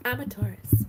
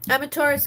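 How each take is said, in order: First: Said in the usual way. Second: I'm a Taurus louder and higher, Taurus punched; loud, pointed I'm a Taurus; emphatic repeat. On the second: Real, not acted. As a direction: hammer home that you're a Taurus. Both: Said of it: "Just so you know".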